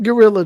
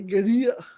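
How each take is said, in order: First: The word is said like English gorilla. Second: The word is said with a Spanish pronunciation. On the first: The speaker calls it wrong. "they don't pronounce it Gorilla" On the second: The speaker calls it right. "Like in Spain, it's a, a Guerrilla"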